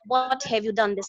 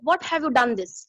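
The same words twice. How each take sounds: First: It is said in a soft, gentle tone. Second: It is said in a harsh, scolding tone.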